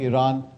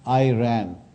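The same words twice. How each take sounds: First: It is said the way locals say it. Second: It is said with an Americanized pronunciation. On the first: The speaker calls it right. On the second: The speaker calls it wrong.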